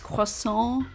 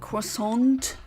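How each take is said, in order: First: The final T sound is silent. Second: The final T sound is pronounced. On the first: The speaker calls it right. "no, it's croissant" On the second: The speaker calls it wrong. "not croissant. You don't um, pronounce the T in that word"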